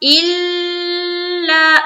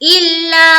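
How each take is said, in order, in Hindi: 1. दोहरा ल देर तक खिंचाव के साथ रोका जाता है। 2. दोहरा ल बिना देर किए जल्दी छोड़ा जाता है। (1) "बाज हमारी बहनें कर कर रही होती इल्ला इल्ला" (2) "लाम में इतना नहीं देर नहीं लगाना"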